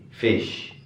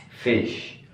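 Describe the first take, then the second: No difference in how they are said.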